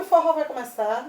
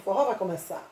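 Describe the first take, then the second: First: It rises at the end like a question. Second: It falls at the end like a statement.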